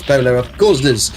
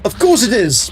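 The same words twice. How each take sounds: First: Said in the usual way. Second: High, sarcastic of course; sarcastic groan of course it is; exasperated. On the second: Real, not acted. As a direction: roll your eyes at the demand, pitched up. Exasperated at game quest demand.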